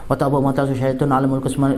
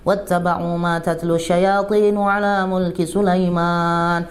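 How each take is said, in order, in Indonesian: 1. Dibaca dengan cepat dan tergesa-gesa. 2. Dibaca dengan pelan dan penuh khusyuk. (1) "Dibaca cepat" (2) "dibaca yang khusyuk gitu"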